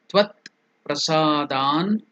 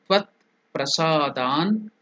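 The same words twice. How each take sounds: The two takes are said the same way.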